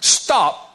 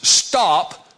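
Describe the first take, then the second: First: It is said forcefully, with strong emphasis. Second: It is said calmly, without extra force.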